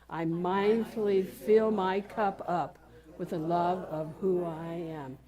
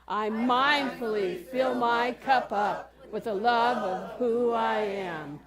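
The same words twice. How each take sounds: First: It is said in a normal voice. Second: It is said in a loud voice.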